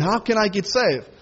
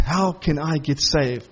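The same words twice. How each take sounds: First: Said in the usual way. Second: Slow, low, earnest plea as the jailer; pleading jailer. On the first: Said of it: "You want people to ask you". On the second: Retold or imitated. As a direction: draw it out like a desperate question. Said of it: "And he says".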